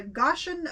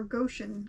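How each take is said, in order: First: Goshen said as GOSH-en; first vowel of Goshen open, as in "gosh"; short-o pronunciation. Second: Goshen said as GO-shen; first vowel of Goshen long, as in "go"; long-o pronunciation. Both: Shown as a demonstration. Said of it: "Or Goshen".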